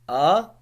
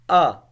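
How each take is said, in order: First: The pitch rises from middle to high. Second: The pitch falls sharply from high to low. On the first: "moving upward like uplift" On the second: "fourth tone which is like going directly declining"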